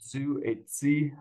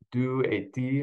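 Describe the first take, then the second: First: The d and t sounds are affricated. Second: The d and t sounds are plain stops. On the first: "avec l'affrication, elle va dire du et ti" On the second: "en France"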